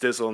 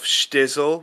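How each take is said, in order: First: The name begins with a plain 's' sound. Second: The name begins with a 'sh' sound. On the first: This is the current form of the name. "so it's Stizzle now" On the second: This was the original form of the name. "I called myself Stizzle with like a sh"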